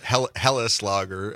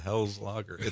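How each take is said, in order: First: The first word is said with two German syllables. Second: The first word is said as one English syllable. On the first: "hit it with the German pronunciation" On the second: "What the hell is a Hell's Lager?"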